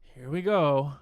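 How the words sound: It is said in a sighing, lamenting tone. The speaker regrets what is coming. "You're lamenting it. exactly"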